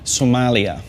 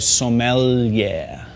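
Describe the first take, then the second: First: It sounds like the country name Somalia. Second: It sounds like so-m-yeah with a held L. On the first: The speaker calls it wrong. "what not to say" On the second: The speaker calls it right. "so you go sommelier"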